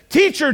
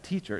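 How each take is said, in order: First: It is said in a panicked, urgent way. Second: It is said calmly and quietly.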